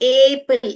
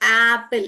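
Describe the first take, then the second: First: The first vowel is a closer 'eh' sound. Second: The first vowel is an open 'ah' sound. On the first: The speaker calls it wrong. "एप्पल ऐसे नहीं बोलते हम" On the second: The speaker calls it right. "एप्पल बोलने के time में हम एप्पल ऐसे बोलते हैं"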